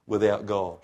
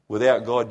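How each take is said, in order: First: Said in the usual way. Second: Without punched louder, God falls away; stress on Without. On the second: Shown as a demonstration. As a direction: hit the word Without with force.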